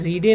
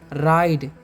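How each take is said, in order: First: The vowel is an 'ee' sound. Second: The vowel is an 'ai' sound. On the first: The speaker calls it wrong. "रीडे नहीं पढ़ना है" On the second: The speaker calls it right. "यहाँ पर आई का उच्चारण आई होगा"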